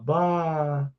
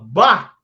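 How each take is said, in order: First: It sounds dismayed, as if reacting to bad news. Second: It sounds pleased, as if reacting to good news. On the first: Something bad has happened. "Se acontece alguma coisa ruim, a gente fala bah nesse tom de voz" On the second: Something good has happened. "Se acontece uma coisa boa, a gente fala bah assim"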